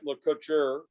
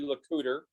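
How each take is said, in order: First: The name is said with a French pronunciation. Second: The name is said with an English pronunciation. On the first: The speaker calls it wrong. "that would be the French French pronunciation" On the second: The speaker calls it right. "but it's actually"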